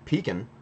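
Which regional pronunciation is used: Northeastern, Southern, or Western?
Northeastern. It is said with a Northeastern pronunciation. "is more of a northeast, um, mid-Atlantic"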